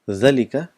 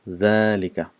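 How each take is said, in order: First: The first vowel is short. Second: The first vowel is long. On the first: "it's written as ذلك" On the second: "but we pronounce it as ذلك"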